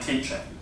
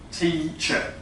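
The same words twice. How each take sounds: First: The first vowel is lower and more open. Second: The first vowel is high and closed. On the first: The speaker calls it wrong. "It was too much like an I" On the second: The speaker calls it right. "close my mouth more, or to raise my tongue more"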